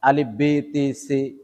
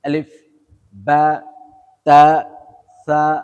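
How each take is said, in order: First: The letter names end in an 'e' vowel. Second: The letter names end in an 'a' vowel. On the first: The speaker calls it wrong. "আগের মানুষ পড়তো ... আসলে সেটা না" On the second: The speaker calls it right. "সঠিক নিয়মে পড়বো"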